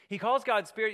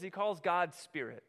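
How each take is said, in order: First: Louder, higher, pressing the point; emphatic repeat. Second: Said in the usual way. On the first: Shown as a demonstration. Preacher repeating it louder to drive the point home. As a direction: hammer home that God is spirit.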